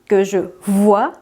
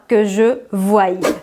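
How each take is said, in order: First: The verb ends in a plain vowel sound. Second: The verb ends with an added 'y' sound. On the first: The speaker calls it right. "On prononce bien que je vois" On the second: The speaker calls it wrong. "et non pas"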